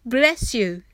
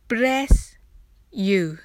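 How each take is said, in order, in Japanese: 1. このフレーズは速く言われます。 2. このフレーズはゆっくり言われます。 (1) "次は早く言ってみましょう。" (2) "ゆっくりです。"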